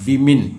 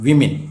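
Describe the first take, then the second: First: The second syllable sounds like 'min'. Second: The same.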